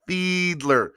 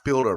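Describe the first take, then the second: First: The L sound comes after the D. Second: The L sound comes before the D. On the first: The speaker calls it right. "Pronounced like Fiedler" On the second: The speaker calls it wrong. "not Fielder"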